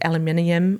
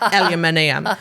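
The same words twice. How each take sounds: First: It is said in her ordinary accent. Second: It is said in a broad Kiwi bogan accent.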